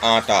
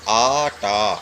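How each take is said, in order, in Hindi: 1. पहला स्वर छोटा बोला जाता है। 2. पहला स्वर लंबा खींचकर बोला जाता है। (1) "कुछ लोग कहते हैं आटा" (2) "आ है"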